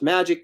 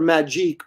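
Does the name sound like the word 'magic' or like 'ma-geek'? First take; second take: magic; ma-geek. First: The name sounds like the ordinary word magic. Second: The name ends in a French-style 'geek' sound. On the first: This is the official pronunciation of the name. The speaker calls it right. "it's actually pronounced Magic" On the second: This is how the speaker used to say the name. The speaker calls it wrong. "I always called her Magique"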